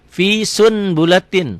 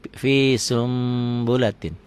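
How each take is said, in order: First: The n sound is kept before the b. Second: The n sound turns into an m. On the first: This is how it is written. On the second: This is how it is read aloud.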